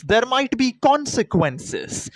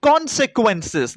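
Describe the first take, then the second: First: Consequences said slowly and high again, stress on be; slow pointed repeat. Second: Consequences drawn out slow and high, falling at the end; slow stressed word. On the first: Mocking fans of the film, slow and pointed. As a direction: hammer it home slowly. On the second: To viewers who won't know the word, slow and pointed. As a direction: spell out consequences slowly like a new word. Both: Shown as a demonstration. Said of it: "you guys might not know this word".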